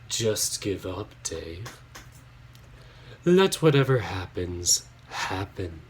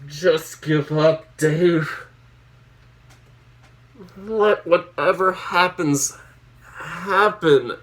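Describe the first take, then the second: First: It is read in a put-on spooky voice. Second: It is read in a normal speaking voice.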